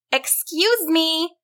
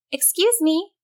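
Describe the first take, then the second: First: High, slow, drawn-out call; more insistent call. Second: High-pitched, polite call. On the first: Susan tries the troll a second time, insistent high call. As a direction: stretch it out to get attention. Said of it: "louder this time". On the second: Susan calls to the troll under the bridge, high polite call. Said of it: "called out to the creature". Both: A narrator's reading.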